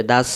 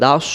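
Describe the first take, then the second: First: "দাস" with an open mouth and thin s; unrounded "দাস", light s as in sin; mistaken SIN ending. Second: "দাস" said rounded, like "daus"; rounded SAD ending. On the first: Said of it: "মুখটা ফাঁকা হবে না". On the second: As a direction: round the mouth on "দাস", heavy s. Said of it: "মুখটা গোল হবে". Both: Shown as a demonstration.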